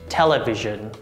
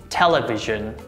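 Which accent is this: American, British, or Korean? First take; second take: American; American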